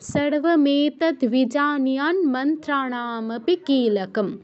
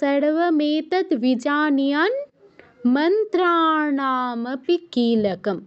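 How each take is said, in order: First: The line runs on without a pause. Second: There is a pause after vijaniyan. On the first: The sandhi is kept joined together. "সন্ধি না ভেঙে একত্রে বলে যেতে পারি" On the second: The sandhi is broken into separate parts. "ভেঙে বলতে পারি"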